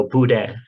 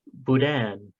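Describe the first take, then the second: First: Boudin with the final N dropped; silent N. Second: Boudin with the final N sounded; N pronounced. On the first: Showing the listener's pronunciation, boudin with a silent N. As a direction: end boudin on the open vowel, no N. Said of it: "Sometimes the N is silent and". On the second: Reading out how to say the word, boudin with its N sounded. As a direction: say boudin, closing on a clear N. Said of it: "Sometimes the N is silent". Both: Shown as a demonstration.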